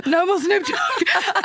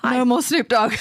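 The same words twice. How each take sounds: First: High, slow, strained through laughter; much higher, slower, laughing desperate plea. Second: Said in the usual way. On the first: Retold or imitated. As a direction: whimper it out like you're overwhelmed. DJ begging for less bass.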